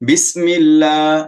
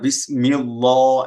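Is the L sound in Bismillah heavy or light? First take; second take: light; heavy. First: The L sound is light and thin. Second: The L sound is heavy and full-mouthed. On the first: The speaker calls it right. "এমন করে কিন্তু বলে" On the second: The speaker calls it wrong. "এমন বলে না"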